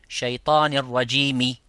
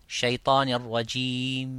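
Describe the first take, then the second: First: The phrase ends with a short vowel. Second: The phrase ends on a bare consonant. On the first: The speaker calls it wrong. "au lieu de shaitanir rajimi" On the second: The speaker calls it right. "avec le soukoun à la fin de shaitanir rajim"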